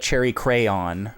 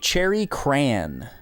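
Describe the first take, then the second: First: The last word is stretched into two syllables. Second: The last word is one short syllable. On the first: The speaker calls it wrong. "that's not a cherry crayon for you mispronouncers" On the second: The speaker calls it right. "This is a cherry cran"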